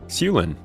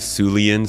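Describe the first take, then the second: First: The name is said with two syllables. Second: The name is said with three syllables. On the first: The speaker calls it right. "It's just how it's spelled" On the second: The speaker calls it wrong. "It gets called the the Sulian so much"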